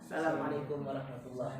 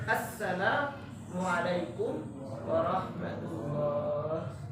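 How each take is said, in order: First: The greeting starts directly with 'sa'. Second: The greeting starts with an 'as' sound. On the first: The speaker calls it wrong. "Enggak pakai alif lam" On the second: The speaker calls it right. "harus ada assalamualaikum warahmatullah"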